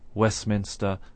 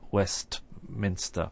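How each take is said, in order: First: It is said with no T sound. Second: It is said with a clear T sound. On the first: The speaker calls it right. "we say Westminster" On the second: The speaker calls it wrong. "and not Westminster"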